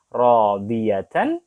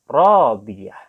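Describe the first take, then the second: First: The word ends with a full 'tan' sound. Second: The word ends with a soft 'h' sound. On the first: "Contoh di sini ada radiyatan" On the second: "karena dia ada di akhir ayat dibaca radiyah"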